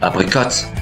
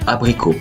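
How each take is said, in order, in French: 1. Le t final se prononce. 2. Le t final est muet. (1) "on ne dit pas" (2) "Mais bel et bien"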